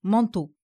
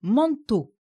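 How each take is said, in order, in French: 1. L'accent est sur la première syllabe. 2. L'accent est sur la deuxième syllabe. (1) "et non « manteau »" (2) "on met l'accent sur la syllabe « tô ». Nous disons « manteau »"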